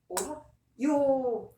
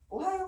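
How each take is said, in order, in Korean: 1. 마지막 모음은 길어요. 네 박자예요. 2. 마지막 모음은 짧아요. 세 박자예요. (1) "네 박자입니다" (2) "장음을 안 지키고"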